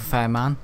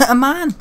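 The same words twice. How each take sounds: First: Said in the usual way. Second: High laughing exclamation; pitched up with a laugh; amused echo. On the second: Real, not acted. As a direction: burst out laughing at your own word. Laughing echo of own words.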